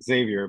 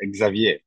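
First: The name is said in an English way. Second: The name is said in a French way.

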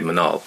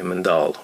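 First: The word is said without a D sound. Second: The word is said with a D sound.

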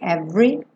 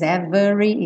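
First: The middle vowel is dropped, giving two syllables. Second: The middle vowel is pronounced, giving three syllables. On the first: The speaker calls it right. "e sim every" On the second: The speaker calls it wrong. "a gente não diz every"

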